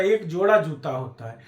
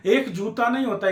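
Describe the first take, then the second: First: Lower, falling answer leaning on जोड़ा; correcting answer. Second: Raised denial hitting एक; stress on एक. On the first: Teacher giving the right count, settled stress on जोड़ा. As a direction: drop down and settle after जोड़ा. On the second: Teacher rejecting a wrong count, stressing एक. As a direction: punch एक, then fall through नहीं. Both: Shown as a demonstration.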